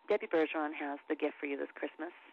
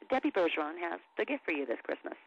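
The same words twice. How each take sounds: First: It is delivered flat and understated, thrown away. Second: It is delivered plainly, with a little more flair. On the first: "Flat reads, this is where you're just kind of throwing it away" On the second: "Straight reads, just tell them like it is"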